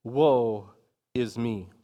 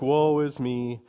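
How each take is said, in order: First: Slow, weighty lament with a pause; lightly acted prophet crying out in woe; Isaiah's solemn cry. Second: Lightly imitated woe-is-me complaint; mock self-pity. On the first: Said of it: "Isaiah cries out". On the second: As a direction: quote the self-pitying type in passing. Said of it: "just an expression of self-pity".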